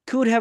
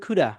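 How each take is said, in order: First: 'Have' is said in full after 'could'. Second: 'Have' is reduced to a short 'a' sound.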